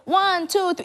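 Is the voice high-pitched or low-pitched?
high-pitched. It is said in a high-pitched voice.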